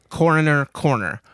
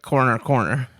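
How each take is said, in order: First: The first word keeps all three syllables. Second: The first word is squeezed into two syllables. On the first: The speaker calls it right. "But now I say" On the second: The speaker calls it wrong. "The first time I said it, I said it like corner, corner"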